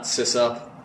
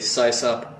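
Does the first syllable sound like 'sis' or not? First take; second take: sis; not sis. First: The first syllable sounds like 'sis', as in sissy. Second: The first syllable does not sound like 'sis'. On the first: The speaker calls it wrong. "not sysup" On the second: The speaker calls it right. "I say sysup"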